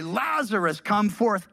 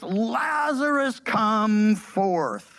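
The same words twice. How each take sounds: First: Said in the usual way. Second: Mild retold shout, names held long; loud cry. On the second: Preacher reading Jesus calling the dead man out, loud cry. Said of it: "he cried out with a loud voice".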